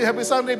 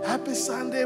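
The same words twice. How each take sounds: First: The greeting sounds quick, flat and perfunctory. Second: The greeting sounds warm and heartfelt. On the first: The greeting is only for show. The speaker calls it wrong. "jangan bilang cuma" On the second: The greeting is sincere. The speaker calls it right. "Tapi become genuine"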